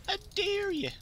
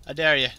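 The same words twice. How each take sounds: First: Very high put-on voice; silly high-pitched challenge; high mock dare. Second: Loud challenge at normal pitch; firm, loud taunt; loud dare. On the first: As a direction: repeat the taunt way up high. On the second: Retold or imitated. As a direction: throw it down loudly, pitch kept natural. Daring an opponent, first take.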